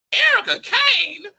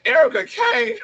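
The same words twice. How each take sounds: First: High, slow incredulous echo of the name; can't believe the nickname, pitched way up; shocked disbelief at the nickname. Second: High disbelieving echo of the name; outraged disbelief at the nickname; incredulous. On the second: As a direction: react in disbelief, pitched way up. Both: Retold or imitated.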